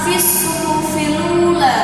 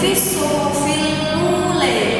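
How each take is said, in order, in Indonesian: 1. Vokal terakhir adalah a terbuka yang biasa. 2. Vokal terakhir condong ke e.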